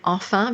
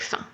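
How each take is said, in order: First: Both syllables are pronounced in full. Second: The first syllable is dropped entirely. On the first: "instead of saying enfin" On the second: "they say fin"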